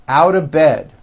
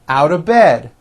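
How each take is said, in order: Both takes have the same delivery.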